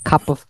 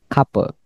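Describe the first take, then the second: First: The 'of' is linked and kept with its v. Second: The 'of' is reduced to a short vowel. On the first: "nah ini dibacanya cup of" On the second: "atau boleh juga kalau di contraction couple"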